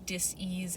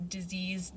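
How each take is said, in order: First: "dis-ease" split with a pause after dis; split word. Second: Said in the usual way. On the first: Shown as a demonstration. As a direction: say "dis-ease" as two parts, dis then ease. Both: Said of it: "dis-ease in your body".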